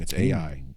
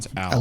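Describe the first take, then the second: First: It is said as two separate letters. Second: It is said as one word, Al. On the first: The speaker calls it wrong. "I mispronounced it" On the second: The speaker calls it right.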